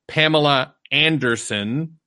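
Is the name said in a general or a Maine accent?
general. A general accent, with the R in its usual place. "most people in the world would say"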